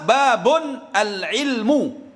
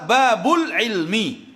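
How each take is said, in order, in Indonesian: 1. Kedua kata itu dibaca terpisah, tidak disambung. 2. Kedua kata ini disambung menjadi satu aliran. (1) "Kalau cuman dibaca berpisah" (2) "kalau nyambung"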